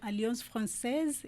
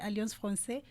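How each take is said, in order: First: The second word is said in its feminine form. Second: The second word is said in its masculine form. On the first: The name is given its proper feminine identity. The speaker calls it right. "giving it its proper place as a feminine word" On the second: The name is given a different identity. The speaker calls it wrong. "you're giving it a different identity"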